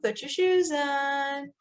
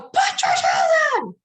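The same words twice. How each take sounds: First: It is said gently and nicely. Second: It is shouted loudly and angrily.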